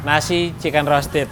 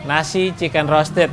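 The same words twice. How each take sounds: The two takes are said the same way.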